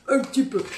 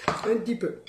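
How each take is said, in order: First: UN appuyé, plus haut et plus fort; « Un petit peu » avec le un martelé; insistant. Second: Said in the usual way. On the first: Shown as a demonstration. (insistance enjouée sur « un »)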